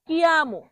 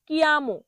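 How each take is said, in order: Both takes have the same delivery.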